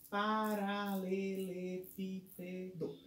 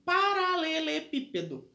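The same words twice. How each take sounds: First: "Paralelepípedo" very slow and soft, each syllable separated. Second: Said in the usual way. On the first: Shown as a demonstration. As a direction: count out Paralelepípedo in seven drawn-out syllables. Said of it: "essa palavra tem sete sílabas". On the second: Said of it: "eu coloquei aqui paralelepípedo".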